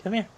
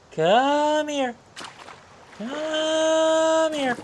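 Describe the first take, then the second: First: Said in the usual way. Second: High sing-song fish coaxing; talking to fish. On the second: Real, not acted. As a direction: croon it high and drawn out.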